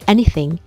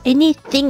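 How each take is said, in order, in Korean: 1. th 발음은 가볍고 짧게 냅니다. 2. th 발음은 강하게 과장합니다. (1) "살짝 물어주면서 anything" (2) "너무 이렇게 오버해서 anything 이렇게 하지 말고"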